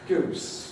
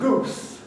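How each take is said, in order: First: The vowel is a fronter oo sound. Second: The vowel is a back, rounded oo sound. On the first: This is how much younger speakers typically say it. "People who are fifty years younger than me typically say" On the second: This is an older, old-fashioned way of speaking. "I'm terribly old-fashioned because you may notice that I pronounce this ooh"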